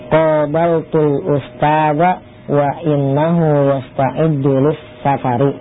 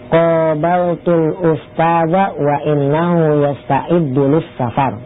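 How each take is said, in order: First: The last word ends with a short vowel. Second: The last word ends on a consonant, no vowel.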